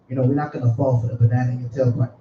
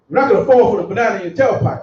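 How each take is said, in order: First: It is said in a soft, unassertive voice. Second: It is said in a firm, authoritative voice.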